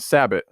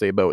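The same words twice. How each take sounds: First: The word is pronounced in an English way. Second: The word is pronounced in a French way. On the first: The speaker calls it wrong. "It's not sabot" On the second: The speaker calls it right. "It's pronounced sabot. It's actually a French term"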